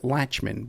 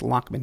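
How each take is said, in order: First: The middle consonant is a ch sound. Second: The middle consonant is a k sound. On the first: The speaker calls it wrong. "Some people might pronounce it Latchman" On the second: The speaker calls it right. "but it's Lockman he likes"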